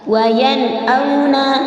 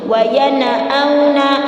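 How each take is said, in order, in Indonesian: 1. Bunyi n jelas dan langsung tersambung ke bunyi berikutnya. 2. Bunyi n dipantulkan dengan tambahan vokal. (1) "Sekali lagi Ustazah kita contohkan" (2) "diqalqalahkan atau dipantulkan huruf nun sukunnya ... bacaan yang salah"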